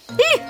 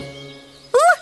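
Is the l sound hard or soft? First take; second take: soft; hard. First: The l sound is soft, palatalized. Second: The l sound is hard, not softened. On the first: "Мягкий согласный" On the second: "Твердый согласный"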